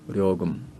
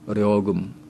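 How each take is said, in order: First: The word begins with an l sound. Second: The word begins with an l sound.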